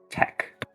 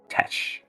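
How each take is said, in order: First: The word ends with a hard k sound. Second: The word ends with a soft sh sound. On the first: The speaker calls it right. "It's um tech" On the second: The speaker calls it wrong. "not uh tesh"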